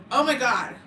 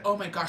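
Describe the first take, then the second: First: Louder, higher shocked outburst. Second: Said in the usual way. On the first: Retold or imitated. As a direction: retell her stunned reaction with more force. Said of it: "she was shooketh". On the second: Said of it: "She's like".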